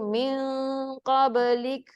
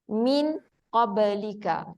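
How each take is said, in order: First: The n is nasally blended and the final vowel dropped. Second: The n is clear and the final vowel pronounced. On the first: This is the usual recitation with tajwid rules. "Memang kita baca dengan tajwid" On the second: This is the plain reading used for learning meaning. "tak ada dengung ke ikhfa tu kita tak buat"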